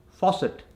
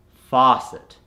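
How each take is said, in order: First: Faucet with a short rounded "o"; Indian accent. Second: Faucet with a long open "ah"; American accent. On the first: Coach gives the word to convert, Indian accent. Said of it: "from the Indian accent". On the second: Coach gives the converted word, American accent. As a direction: say "faucet" American, as "fah-cet". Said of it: "to the American accent". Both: Shown as a demonstration.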